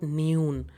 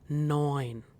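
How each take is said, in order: First: The vowel sounds like 'oo'. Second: The vowel sounds like 'oi'. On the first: The speaker calls it wrong. "this is not noon" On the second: The speaker calls it right. "E U diphthong is pronounced as oi. So hence it will be neun"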